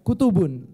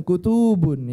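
First: "kutubun" with every vowel short; correct short vowels. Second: "kutubun" with the second u drawn out; wrong long vowel. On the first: Teacher models the right word for students, short-vowel "kutubun". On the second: Teacher shows students the mistake, lengthened "tuu" in "kutubun". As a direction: stretch the middle of "kutubun" into kutuubun. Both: Shown as a demonstration. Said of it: "bukan kutubun".

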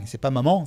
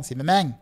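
First: Said in the usual way. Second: "maman" said "mèmèng", with a velar tail; Marseille maman. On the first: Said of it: "quand tu parles comme maman". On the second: Shown as a demonstration.

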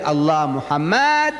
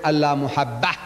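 First: "Muhammad" drawn out on its last syllable; contrasting the look-alike. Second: "Muhabbah" punched on its final "bah"; stressed real wording. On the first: Speaker showing how we write it, "Muhammad" stretched and stressed. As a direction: lengthen "Muhammad", holding it before the contrast. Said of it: "exactly as we write Allah Muhammad". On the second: Speaker exposing what they wrote, "Muhabbah" stressed at the end. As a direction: land firmly on the end of "Muhabbah". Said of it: "they wrote Allah Muhabbah". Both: Shown as a demonstration.

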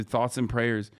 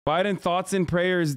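First: Sarcastic quote. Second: Mocking. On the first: Retold or imitated. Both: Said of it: "Motherfucker said".

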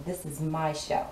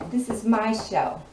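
First: Said in the usual way. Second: Emphatic. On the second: Retold or imitated. Repeating it with emphasis.

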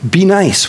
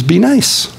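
First: "Be nice" with a settled fall on "nice"; firm falling command. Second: "Be nice" with the voice lifting on "nice"; gentle rising command. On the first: Real, not acted. Preacher pressing the congregation to be nice, falling firmly. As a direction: state "Be nice" plainly, dropping firmly on "nice". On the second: Acted. Jesus telling people to be nice, with a lift on "nice". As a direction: quote "Be nice" with a light upward lift on "nice".

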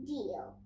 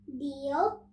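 First: "Deal" low and falling, as a settled answer; "Deal" stated with a firm downward tune; agreeing. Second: "Deal" rising as a question; "Deal" asked, pitch going up; questioning offer. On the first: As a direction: agree with a lower, softer "Deal" that drops at the end. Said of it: "agrees Nora". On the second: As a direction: offer "Deal" with an upward lift at the end. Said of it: "says the tiger". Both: A narrator's reading.

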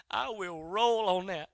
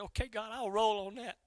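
First: Slow, deliberate commitment; measured, settled acceptance; resolute. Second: Said in the usual way. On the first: Retold or imitated. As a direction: say "I will roll on that" drawn out and firm. Accepting again, slowly and firmly.

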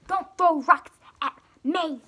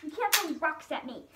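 First: Shout. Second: Said in the usual way. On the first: Acted. Protesting being hit by rocks.

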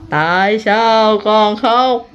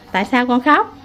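First: Very slow, lower, stretched-out question; drawn-out questioning. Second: Said in the usual way. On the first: Real, not acted. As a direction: stretch every word out as you coax an answer. Repeats question slowly to crying child.

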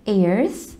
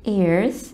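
No difference in how they are said.

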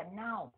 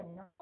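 First: "now" with an open ow glide; vowel contrast. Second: "no" with a round oh, softer; vowel contrast. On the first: Teacher explaining spelling without K, gliding "now". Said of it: "thì đọc là now". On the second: Teacher explaining spelling with K, rounded "no". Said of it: "thì đọc là no". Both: Shown as a demonstration.

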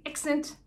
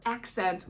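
First: Imitated Kiwi "accent", starting with eh, like "exint"; A becomes E. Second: Said in the usual way. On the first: Shown as a demonstration. American vlogger not good at their accent, imitated Kiwi pronunciation. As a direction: say "accent" with eh for the first A. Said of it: "not even good at their accent". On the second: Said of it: "an A with an E".

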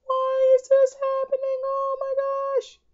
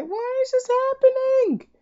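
First: Very high, breathless whispered whine; squeaky whisper. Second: Very high, squeaky wail of despair; squeaky whine. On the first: Gamer mourns lost cells in a high whisper. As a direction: whisper the despair in a tiny squeak. Whining after losing cells. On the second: Gamer losing cells wails at the game in a high squeal. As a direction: let the question climb into a cartoonish squeal. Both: Real, not acted.

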